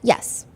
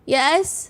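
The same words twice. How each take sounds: First: It is said flatly, like plain reading. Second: It is said with raw, strained emotion. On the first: It is just the written answer. "if I'm just like reading the transcript" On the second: The witness is deeply shaken. "in reality, it's more like, yes, like it's very like raw"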